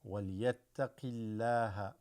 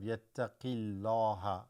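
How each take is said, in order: First: The l sound is light and thin. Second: The l sound is heavy and full. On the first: The speaker calls it right. "read with what is called a small mouth" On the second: The speaker calls it wrong. "which is wrong"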